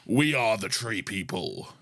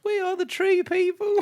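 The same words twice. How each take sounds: First: Deep alien voice. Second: Squeaky voice pitched way up; high alien voice. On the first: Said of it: "am I doing deep". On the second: Cohosts layering voices, comically high alien child voice. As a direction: go high and thin like a creepy child. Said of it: "I'll go high". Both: Shown as a demonstration.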